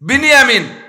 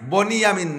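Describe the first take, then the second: First: The first vowel sounds like 'i'. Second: The first vowel sounds like 'o'. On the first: The speaker calls it right. "উচ্চারণ শেখেন বিনিয়ামিন" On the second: The speaker calls it wrong. "বনিয়ামিন না"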